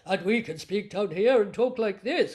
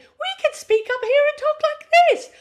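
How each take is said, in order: First: It is spoken in a low-pitched voice. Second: It is spoken in a high-pitched voice.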